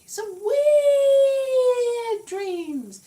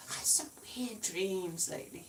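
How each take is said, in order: First: High, loud, very slow ghostly drawl; mock ghost moan on the words; spooky wail. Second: Said in the usual way. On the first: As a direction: stretch it out like a haunting. Spooky repeat of her dream remark.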